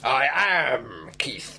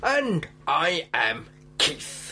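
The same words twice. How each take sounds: First: Slow whispered jaw-out voice; underbite. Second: Underbite. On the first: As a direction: whisper it slowly with the jaw pushed out. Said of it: "grasping the air with my clawed hand". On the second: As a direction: push the jaw forward and speak slowly. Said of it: "jutting his jaw out heroically". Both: Pretend.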